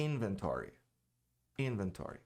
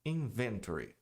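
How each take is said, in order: First: Inventory stressed on IN, clear English; inventory, said the right English way; inventory, correct English pronunciation. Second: Inventory said the Brazilian way, stress on TO; inventory with Portuguese stress on the middle; inventory, Brazilian mispronunciation; common wrong inventory. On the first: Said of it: "a pronúncia correta é". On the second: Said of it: "A maioria das pessoas pronuncia". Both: Shown as a demonstration.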